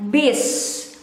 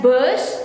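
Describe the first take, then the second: First: "bis" with a clear "ee" vowel; "bis" pronounced with an i sound; pronunciation demo. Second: "bus" with a rounded vowel, not "ee"; "bus" as a variant of "bis"; variant pronunciation. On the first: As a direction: say "bis" like "beess". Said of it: "We read it as". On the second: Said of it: "some people might pronounce it as". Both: Shown as a demonstration.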